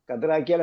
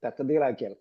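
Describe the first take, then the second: First: ഖദ്റാക്കിയാൽ said as the rejected short form; teacher voices the wrong word ഖദ്റാക്കിയാൽ, just the plain short form; wrong form, not this. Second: തഖ്ദീറാക്കിയാൽ with the full ta-khdee syllables, softer; correct form. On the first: Teacher showing students the wrong form, said plainly. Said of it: "എന്നല്ല". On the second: Teacher correcting students, careful full pronunciation. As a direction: give തഖ്ദീറാക്കിയാൽ its full ta-khdee-r sounds, quietly. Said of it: "ഖദ്റാക്കിയാൽ എന്നല്ല". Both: Shown as a demonstration.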